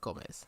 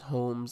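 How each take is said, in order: First: The name is said as Gomez. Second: The name is said as Holmes. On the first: The speaker calls it wrong. "not uh, Gomez" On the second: The speaker calls it right. "it is Holmes"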